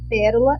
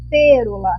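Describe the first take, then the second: First: The first vowel is an open e sound. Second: The first vowel is a closed e sound. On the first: The speaker calls it right. "com acento agudo no E, onde o som está aberto" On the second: The speaker calls it wrong. "Se não tivesse o acento, ficaria pêrola"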